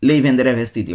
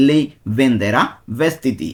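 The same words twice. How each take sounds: First: Said in the usual way. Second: Slow, drawn-out Lei venderà vestiti; slow demonstration. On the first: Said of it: "second take of the demo". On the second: Shown as a demonstration. Teacher showing students a sentence, very slow. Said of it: "first take of the demo".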